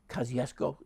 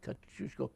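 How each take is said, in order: First: The name is said with anglicized sounds. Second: The name is said with Polish sounds. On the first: "it's also pronounced" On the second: "is the correct Polish pronunciation"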